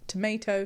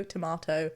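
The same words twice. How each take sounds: First: "tomato" said "tuh-MAY-toh"; "tomayto" pronunciation. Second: "tomato" said "tuh-MAH-toh"; "tomahto" pronunciation. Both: Shown as a demonstration. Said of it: "Possibly tomato, tomato".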